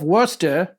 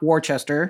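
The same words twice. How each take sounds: First: The name is said in a short, clipped form. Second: The name is said fully, following its spelling. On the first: The speaker calls it right. "the Earl of Worcester" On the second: The speaker calls it wrong. "not Worcester"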